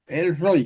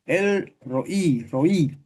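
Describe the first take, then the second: First: Said in the usual way. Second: Roí with the stress on the last vowel í, ro-Í; stress on the final í. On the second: Shown as a demonstration. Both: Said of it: "el acento va en la I".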